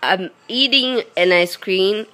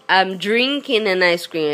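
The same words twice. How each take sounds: First: Eating stressed, with a rising tune. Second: Drinking stressed, with a falling tune. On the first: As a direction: lean on the word eating and lift the end. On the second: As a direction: lean on the word drinking and let it fall. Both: Shown as a demonstration. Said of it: "if in U S A you guys tell".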